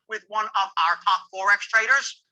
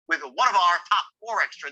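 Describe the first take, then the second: First: It is said the way a novice says it. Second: It is said the way an expert says it.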